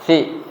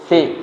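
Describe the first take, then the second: First: The consonant is a plain hissing s. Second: The consonant is a lisped th sound. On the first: The speaker calls it wrong. "jangan si si si si" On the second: The speaker calls it right. "seakan-akan seperti lidahnya digigit kemudian ditarik"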